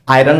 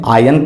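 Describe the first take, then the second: First: The word is said with an R sound. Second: The word is said without an R sound. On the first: The speaker calls it wrong. "आयरन नहीं पढ़ते हैं" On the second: The speaker calls it right. "आयन पढ़ते हैं"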